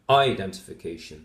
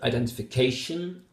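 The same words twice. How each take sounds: First: The strongest stress is on the first syllable. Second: The strongest stress is on the 'ca' syllable. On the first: The speaker calls it wrong. "I indicated primary stress here in the first syllable" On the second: The speaker calls it right. "I emphasize K the most in that word"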